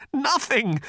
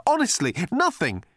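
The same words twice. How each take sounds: First: High, earnest insistence; insisting Arthur. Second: High, pleading insistence; insisting Arthur. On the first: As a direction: protest your innocence. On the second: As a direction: beg to be believed. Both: A narrator's reading. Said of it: "insisted Arthur".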